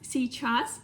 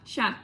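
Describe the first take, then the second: First: The word has two syllables. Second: The word is cut to one short syllable. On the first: "normal word first" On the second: "or even ща"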